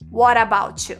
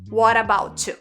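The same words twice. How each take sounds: First: The words run together with linked sounds. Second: The same.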